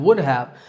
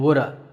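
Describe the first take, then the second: First: Both words are said fully and separately. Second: The words blend into one short reduced form.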